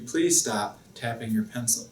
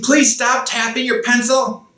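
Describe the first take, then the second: First: The request sounds calm and gentle. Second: The request sounds angry and harsh. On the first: The other person stays calm and the problem goes away. The speaker calls it right. "Nice, calm voice" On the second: The other person may get upset and answer angrily. The speaker calls it wrong. "That is an angry voice"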